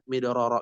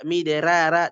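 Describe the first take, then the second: First: "midroro" with thick, rounded r syllables; softer "midroro", heavy on both r's. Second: "miderara" with thin, open "ra"s; "miderara" as the mistaken light reading; wrong light ra. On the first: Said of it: "tetap midroro". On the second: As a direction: keep "miderara" unrounded. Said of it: "tidak dibaca miderara". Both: Shown as a demonstration.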